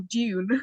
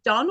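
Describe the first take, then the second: First: The vowel is long, as in 'dune'. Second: The vowel is short, as in 'done'. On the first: "like sand dunes?" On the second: "is it done or"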